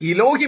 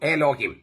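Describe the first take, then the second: First: The first vowel is an 'i' sound. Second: The first vowel is an 'e' sound. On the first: This is the older, original pronunciation. "അത് ഉച്ചരിച്ചിരുന്നത് ഇലോഹിം എന്നായിരുന്നു" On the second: This is the later, current pronunciation. "എലോഹിം എന്നാണ്"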